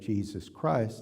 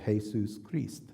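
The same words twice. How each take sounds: First: The name is said with an English pronunciation. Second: The name is said with a Spanish pronunciation. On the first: The speaker calls it right. "instead of having it say Jesus Christ" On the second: The speaker calls it wrong.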